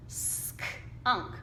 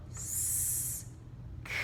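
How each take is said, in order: First: Sk-unk whispered with a small break; teacher blending skunk; blending sounds. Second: S-k-unk whispered, sounds split apart; teacher segmenting skunk for kids; sounding out slowly. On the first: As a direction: start joining the sounds. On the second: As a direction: break the word into pieces. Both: Shown as a demonstration. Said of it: "we have to go".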